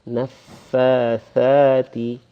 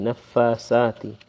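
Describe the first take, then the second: First: The second word starts with a th sound. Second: The second word starts with an s sound. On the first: The speaker calls it right. "with the tongue protruding somewhat" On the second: The speaker calls it wrong. "a lot of us say sati"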